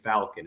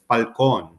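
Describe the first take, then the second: First: The surname has an anglicized English pronunciation. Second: The surname has its original Spanish pronunciation. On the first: This is the form the family adopted for convenience. "my dad got tired of correcting the pronunciation, so it became Falcon" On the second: This is the name's true original form. "I've been answering it truthfully. It's Falcon"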